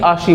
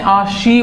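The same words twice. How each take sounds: First: The final i vowel is short. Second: The final i vowel is long. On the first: The speaker calls it wrong. "ना कि आशी बोला है" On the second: The speaker calls it right. "आपने आशी बोला है"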